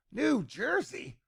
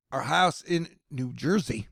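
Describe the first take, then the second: First: Slow, high, soft amused echo of New Jersey; amused repeat. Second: Said in the usual way. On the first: Retold or imitated. Repeats place name, amused.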